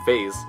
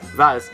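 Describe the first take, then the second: First: It is said the American way. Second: It is said the British way. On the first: "while it's pronounced vase in America" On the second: "Vaz is vase in the U K"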